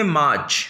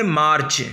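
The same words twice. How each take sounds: First: मार्च with a silent r, "maach"; English pronunciation. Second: मार्च with the r sounded before "ch"; Hindi pronunciation. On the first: Teacher contrasts English with Hindi for learners, English pronunciation. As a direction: drop the r in मार्च, English style. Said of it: "और English में मार्च". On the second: Teacher contrasts Hindi with English for learners, Hindi pronunciation. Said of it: "Hindi में मार्च". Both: Shown as a demonstration.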